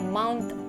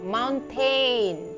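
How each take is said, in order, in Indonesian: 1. Suku kata terakhir tereduksi, bukan 'tain'. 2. Suku kata terakhir adalah bunyi 'tain' penuh. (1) "Tapi yang benar itu adalah mountain" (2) "Memang tulisannya tain, tain ... jangan dibilang mountain"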